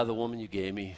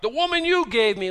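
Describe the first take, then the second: First: Said in the usual way. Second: YOU punched very high and loud; accusing shout leaning hard on YOU; stress on YOU. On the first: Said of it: "I think he came clean". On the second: Acted. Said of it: "wherever you put the emphasis".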